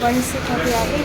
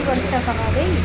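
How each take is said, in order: First: Said in the usual way. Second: A lightly put-on funny voice; mock voice on the repeat, barely changed. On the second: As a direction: repeat it in a silly altered voice. Repeats line in odd voice.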